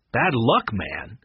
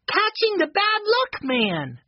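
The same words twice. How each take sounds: First: Incredulous echo. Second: Put-on very high, slow child's voice; accusing young boy. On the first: Eddie answers Benny's accusation, incredulous. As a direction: echo it slowly as a puzzled question. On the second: Benny answers Eddie with folded arms, accusing. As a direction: draw it out high, proudly accusing. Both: A narrator's reading.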